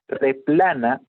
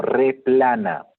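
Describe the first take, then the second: First: Said in the usual way. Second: Replana drawn out slowly with a rising end; teacher introducing Replana slowly; slow emphasis. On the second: Shown as a demonstration. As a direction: present Replana slowly, like a new term. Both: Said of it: "¿Qué cosa es un replanismo?".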